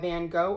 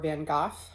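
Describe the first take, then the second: First: The name has an American pronunciation. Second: The name has a European pronunciation.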